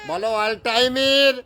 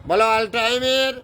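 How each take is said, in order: No difference in how they are said.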